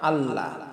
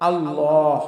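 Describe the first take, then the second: First: The L is light and thin. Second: The L is heavy and thick. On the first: The speaker calls it wrong. "কখনো বলবো না আল্লাহ" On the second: The speaker calls it right. "এটা হলো পুর বা মোটা হবে"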